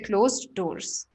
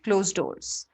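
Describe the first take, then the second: First: Both d sounds are pronounced separately. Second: The two d sounds merge into one. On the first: "you don't have to say" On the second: "just try and pronounce it together"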